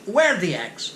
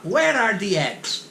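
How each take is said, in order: First: "Where the eggs?" with the are swallowed; dropped are. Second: "Where are the eggs?" slow, every word said; full careful form. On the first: Husband asking wife for eggs, are swallowed. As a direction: drop "are", run straight into "the". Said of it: "Mas ele só falou assim". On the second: Husband asking wife for eggs, careful full form. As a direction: pronounce each word slowly. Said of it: "em vez de falar". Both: Shown as a demonstration.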